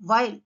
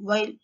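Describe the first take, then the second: First: "వైల్" with a clear V onset; V sound. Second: "వైల్" as while, lips rounded; "వైల్" with lips pushed forward; W sound. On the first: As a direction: start "వైల్" with V. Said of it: "వి sound ఎలా వస్తుంది?". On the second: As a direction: start "వైల్" with W. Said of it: "mouth shape changes". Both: Shown as a demonstration.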